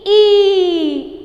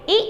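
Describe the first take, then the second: First: ई loud, high and sustained; long vowel. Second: ई said as a short, quick sound; brief vowel. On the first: Teacher answering how to pronounce it, ई long and loud. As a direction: hold ई out firmly. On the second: Teacher modelling for pupils, ई cut short. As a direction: keep ई brief, almost a single beat. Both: Shown as a demonstration. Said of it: "कैसे pronounce करोगे?".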